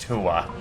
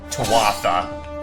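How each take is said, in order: First: The word is said in a short, reduced form. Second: The word is said fully, as it is spelled. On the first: This is the real pronunciation. The speaker calls it right. "That is literally how it's pronounced" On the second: This is how the game says it. The speaker calls it wrong. "They pronounce it like it's spelled"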